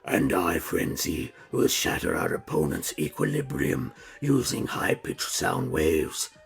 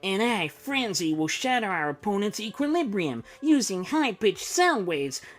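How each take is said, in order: First: It is said in Soundwave's character voice. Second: It is said in Frenzy's character voice.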